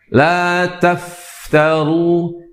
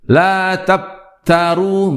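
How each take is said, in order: First: The f is breathy, with plenty of air. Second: The f has little air, lips nearly closing. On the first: The speaker calls it right. "jangan ditahan atau dilemahkan" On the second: The speaker calls it wrong. "tidak adanya atau lemahnya sifat hamas... bahkan cenderung menutup ya kedua bibir"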